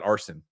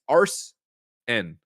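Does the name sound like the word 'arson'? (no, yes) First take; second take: yes; no. First: It sounds just like the word arson. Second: It does not sound like the word arson. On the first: The speaker calls it wrong. "not arson, unless we're burning down" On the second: The speaker calls it right. "it's arsen"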